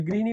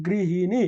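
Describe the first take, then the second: First: Said in the usual way. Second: গৃহিণী spelt out evenly by syllable, rising at the end; teacher modelling গৃহিণী with a lifted ending; pronunciation demo. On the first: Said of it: "বানানোর উচ্চারণ কি হবে". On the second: Shown as a demonstration. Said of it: "গৃহিণী বানানোর উচ্চারণ কি হবে".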